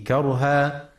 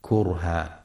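First: كرها with kaf open, karhan; correct pronunciation. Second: كرها with kaf rounded, kurhan, said lower; wrong pronunciation. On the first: Teacher shows listeners the Hafs reading with fatha. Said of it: "لفتح الكاف وعدم ضمها". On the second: Teacher warns listeners against damma on the kaf. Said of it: "فلا يقرأ". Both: Shown as a demonstration.

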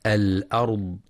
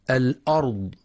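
First: Light, thin hamza opening الأرض; الأرض with its hamza kept thin. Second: Heavy, emphatic hamza opening الأرض; الأرض wrongly thickened at the start; heavy hamza error. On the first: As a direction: say الأرض with an unemphatic, front "a" on the hamza. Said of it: "ينتبه القارئ لترقيق الهمزة". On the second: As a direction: say الأرض with a dark, backed "a" on the hamza. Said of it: "بتفخيم الهمزة". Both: Shown as a demonstration.

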